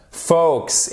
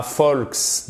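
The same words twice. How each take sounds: First: "Folks" said like "fokes"; silent L. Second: "folks" with an audible L; wrong "folks", L voiced before the K; L pronounced. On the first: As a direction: say "Folks" without any L. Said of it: "On ne prononce pas le L". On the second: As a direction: mistakenly sound the L in "folks". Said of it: "et pas folks". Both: Shown as a demonstration.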